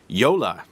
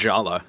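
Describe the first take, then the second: First: The name begins with a Y sound. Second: The name begins with a J sound. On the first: The speaker calls it right. "is how you pronounce it" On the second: The speaker calls it wrong. "not Jala, as I think I said a few times"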